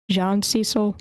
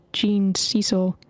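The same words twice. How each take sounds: First: "Jean" as ZHAHN before Cecil; French-style Jean. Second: Jean said like "jeen", long ee; "Jean" with an English long ee vowel; English-style Jean. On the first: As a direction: say Jean the French way, open nasal vowel. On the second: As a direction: say Jean to rhyme with "bean". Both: Real, not acted. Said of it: "whether it's Jean or Jean".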